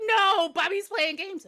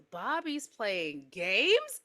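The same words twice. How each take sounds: First: High, drawn-out panicky insistence; worked-up mother pleading; frantic insistence. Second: Slow, patronizing echo as a question; drawn-out condescending question; talking to a toddler. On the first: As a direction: insist desperately, pitched up. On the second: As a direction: repeat it slowly, as if to a two-year-old. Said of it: "like she's two years old". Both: Acted.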